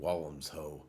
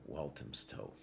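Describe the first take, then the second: First: Some consonants in the name are dropped. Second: Every consonant in the name is clearly pronounced.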